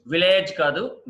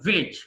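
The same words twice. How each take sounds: First: విలేజ్ with a long "layj" ending; wrong pronunciation. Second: విలేజ్ with a short "lij" ending; correct pronunciation. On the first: (విలేజ్ చివర "లేజ్" అని తప్పుగా) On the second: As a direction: say విలేజ్ as "VIL-ij". (విలేజ్ చివర "లిజ్" అని) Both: Shown as a demonstration.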